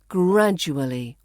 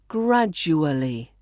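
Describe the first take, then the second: The two takes are said the same way.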